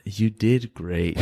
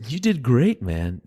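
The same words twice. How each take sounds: First: Slow, drawn-out knowing praise with a laugh in it; condescending praise. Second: Upbeat praise. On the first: The rival in the elevator, slowly and condescendingly praising Andreas. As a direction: lay the fake praise on slowly, half-laughing. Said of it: "was that snarky". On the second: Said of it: "was that snarky, condescending". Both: Retold or imitated.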